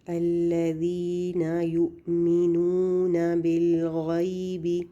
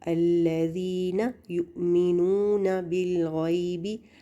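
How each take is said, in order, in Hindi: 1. हर छोटी ज़बर आराम से और बराबर पढ़ी जाती है। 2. हर छोटी ज़बर झटके से ऊपर उछलती है। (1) "इनको आराम से पढ़ना है।" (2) "ना ना ऐसे करके उछल गई"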